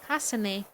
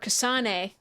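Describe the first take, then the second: First: The name is said with a Japanese-style accent. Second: The name is said with an American accent.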